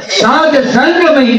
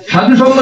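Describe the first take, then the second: First: "সাধ সঙ্গময়ী" with সাধ ending on the consonant; corrected pronunciation. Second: "সাধু সঙ্গ" with সাধু ending in u; wrong pronunciation. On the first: Speaker corrects a common error, pronouncing "সাধ সঙ্গময়ী" without the u. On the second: Speaker corrects listeners, citing the mistaken "সাধু সঙ্গ" with final u. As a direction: cite "সাধু সঙ্গ" as the error, with an added u. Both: Shown as a demonstration. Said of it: "উচ্চারণটা ভুল".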